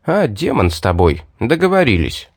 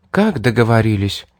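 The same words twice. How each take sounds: First: Offhand, reckless agreement; lightly sardonic acceptance; wry concession. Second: Startled echo question on договорились; mildly stunned query; taken aback. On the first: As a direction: give in with a crooked smirk. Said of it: "криво усмехнувшись, ляпнул". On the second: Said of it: "Разом оборвала свой смех девушка". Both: A narrator's reading.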